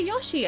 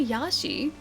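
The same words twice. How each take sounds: First: Yoshi with an O in the first syllable. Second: Yashi with an open A in the first syllable. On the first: Defending how they say it to chat, Yoshi with O. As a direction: say Yoshi with an O, insisting. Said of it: "No, I say Yoshi". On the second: Denying chat's claim about their accent, Yashi with A. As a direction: say Yashi with an A, the rejected version. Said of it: "I don't say Yashi". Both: Shown as a demonstration.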